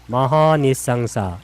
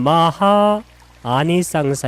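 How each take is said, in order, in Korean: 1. 모음이 합쳐지고 두 단어가 이어져서 발음됩니다. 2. 두 단어 모두 자기 모음을 유지하고, 따로 발음합니다. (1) "읽을 때는 마하니상사 이렇게 읽으면 읽기가 좀 편하죠" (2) "원래는"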